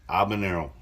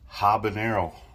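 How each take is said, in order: First: The word starts with a vowel, no H. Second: The word starts with an H sound. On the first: The speaker calls it right. "There's no H" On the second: The speaker calls it wrong. "Even though there's an H"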